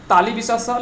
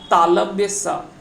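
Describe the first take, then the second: First: The first word is said as 'taalibya'. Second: The first word is said as 'taalavya'. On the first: The speaker calls it wrong. "हम पढ़ते हैं ना" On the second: The speaker calls it right. "लेकिन actual में इसका उच्चारण जो होता है"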